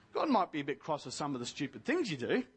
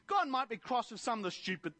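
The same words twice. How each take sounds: First: Hurried self-correction after an apology. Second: Said in the usual way. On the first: Real, not acted. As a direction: lower and fast, rushing the fix. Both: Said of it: "sorry, forgive me, dear Jesus".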